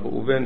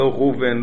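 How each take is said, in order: First: The stress falls on the final syllable. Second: The stress falls on the next-to-last syllable. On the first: The speaker calls it right. "כל השמות בעברית הם מלרע" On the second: The speaker calls it wrong. "לא ראובן"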